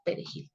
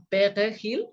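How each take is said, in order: First: Said in the usual way. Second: Perejil with a French throaty R; mock French pronunciation of Spanish; French accent. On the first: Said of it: "dime la palabra perejil". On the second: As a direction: imitate a French speaker failing at perejil. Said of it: "Y entonces ellos decían".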